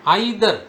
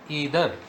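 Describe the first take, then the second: First: "either" starting like "eye"; EYE-ther pronunciation. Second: "either" said EE-ther; "either" opening on an "ee" sound; EE-ther pronunciation. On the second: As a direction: say "either" with a long E, as in see. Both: Shown as a demonstration. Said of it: "Once again".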